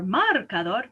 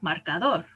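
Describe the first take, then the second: First: The stress falls before the last syllable. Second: The stress falls on the last syllable. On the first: The speaker calls it wrong. "I don't say marcador" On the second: The speaker calls it right.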